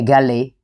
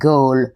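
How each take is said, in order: First: The name is said like Gali, ending in ee. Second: The name is said like the word Gaul. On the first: This is how local people say it. The speaker calls it right. "local people definitely say Gali" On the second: This is how visitors might say it. The speaker calls it wrong. "some of you might pronounce it Gaul"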